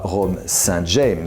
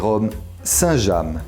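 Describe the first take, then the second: First: Saint James is pronounced the English way. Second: Saint James is pronounced the French way. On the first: This is how English speakers say it. The speaker calls it wrong. "on ne prononce pas" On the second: This is how French speakers say it. The speaker calls it right. "on le prononce à la française"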